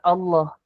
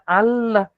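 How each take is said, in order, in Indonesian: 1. Kata itu dibaca dengan lafal Arab. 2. Kata itu dibaca tanpa lafal Arab. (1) "bukan Allah"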